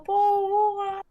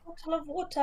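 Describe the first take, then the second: First: "bowl of water" with glottal stops for the T's; T's dropped. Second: "bottle of water" with the T's fully sounded; T's pronounced. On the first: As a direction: swallow every T in "bowl of water". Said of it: "some people don't actually know how to pronounce the T". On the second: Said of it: "Do you say bottle of water or". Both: Shown as a demonstration.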